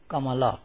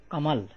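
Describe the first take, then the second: First: "Kamala" with the final a fully voiced; every vowel sounded. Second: "Kamal" ending on the l, no final a; two syllables, "Kamal", closed on l; final vowel dropped. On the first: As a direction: say all three syllables, "Ka-ma-la". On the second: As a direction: say "Kamal" with the last vowel left silent. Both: Shown as a demonstration. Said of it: "and not".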